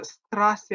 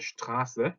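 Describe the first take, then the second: First: "스트라스" opening with plain st, no sh; wrong s sound. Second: "슈트라스" opening with sht instead of st; German sht in "슈트라스"; correct sh sound. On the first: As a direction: say "스트라스" with a hissed s before t. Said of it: "이거 스트라스 아니에요". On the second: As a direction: start "슈트라스" on a shushing sh. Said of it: "슈트라스입니다". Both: Shown as a demonstration.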